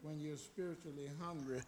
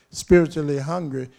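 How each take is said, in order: First: Much softer lead-in to the point; hushed preaching. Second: Loud, punched "spiritually hungry"; emphatic repetition. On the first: Same phrase soft, then repeated forcefully. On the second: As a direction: drive the phrase home loudly. Repeats the phrase forcefully for emphasis. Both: Real, not acted.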